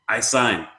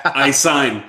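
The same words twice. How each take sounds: First: Lightly voiced eager offer in broken English; a hint of the old actor, calm; imitating the actor. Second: A touch more insistent repeat of the offer; insisting actor. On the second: Retold or imitated. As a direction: press the offer a bit harder. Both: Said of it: "and he comes".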